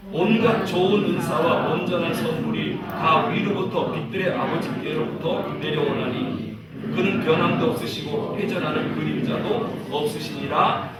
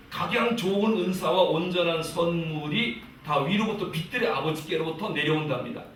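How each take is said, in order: First: Measured, even group recitation; scripture reading aloud. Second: Said in the usual way. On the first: Real, not acted. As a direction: read the verse out firmly for all to follow. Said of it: "읽어보겠습니다". (또박또박 성경을 합독하는 낭독) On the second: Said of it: "보니까요".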